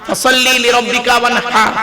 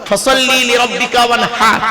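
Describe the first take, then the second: The two takes are said the same way.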